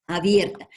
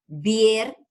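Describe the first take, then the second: First: Said in the usual way. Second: "abierta" broken into separate syllables, a, bier, ta; split into syllables. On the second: Shown as a demonstration. Teacher separating a word for class, "abierta" syllable by syllable. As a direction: say "abierta" syllable by syllable with clear gaps. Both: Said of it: "vamos a separarla".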